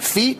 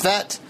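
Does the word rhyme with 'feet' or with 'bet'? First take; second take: feet; bet. First: The vowel is long, like in 'feet'. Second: The vowel is short, like in 'bet'. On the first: "I was pronouncing it feet" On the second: "Someone told me it's pronounced Fet"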